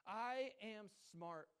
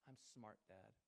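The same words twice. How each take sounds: First: High, very slow "I am smart"; dad's slow affirmation. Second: Much softer, lower "I'm smart"; daughter repeating. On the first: Shown as a demonstration. Father leading his daughter in affirmations, slow. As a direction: stretch every word out for her to copy. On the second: Retold or imitated. Little daughter answering her dad at bedtime, soft. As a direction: mumble it back like a small child. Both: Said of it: "she repeats after me".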